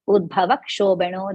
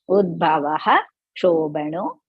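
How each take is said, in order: First: The first word ends without a final 'ha'. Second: The first word ends with a full 'ha' syllable. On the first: The speaker calls it wrong. "Don't say Udbhava Kshobano Deva Devaha like that" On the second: The speaker calls it right. "You are going to completely pronounce that"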